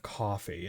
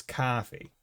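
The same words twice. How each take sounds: First: "coffee" with a rounded O sound; O vowel in coffee. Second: "coffee" with an open AH sound; AH vowel in coffee. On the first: Showing the vowel not used locally, "coffee" with an O. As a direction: say "coffee" with AW in the first syllable. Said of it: "instead of an O". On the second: Showing the New England vowel, "coffee" with an AH. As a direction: say "coffee" as if spelt "cahfee". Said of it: "it's more of an A H sound". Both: Shown as a demonstration.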